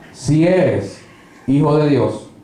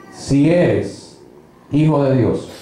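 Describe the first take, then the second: Both takes have the same delivery.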